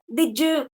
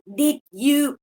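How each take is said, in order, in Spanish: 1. La d y la y se unen en un sonido 'j'. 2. Los sonidos d e y se mantienen separados. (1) "se haría como el, el affricate, sonaría ahí" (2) "en vez de decir did you"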